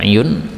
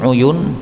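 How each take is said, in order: First: The word starts with an i vowel. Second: The word starts with a u vowel.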